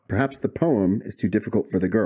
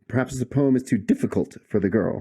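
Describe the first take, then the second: First: The stress is on the word poem. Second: The stress is on too difficult.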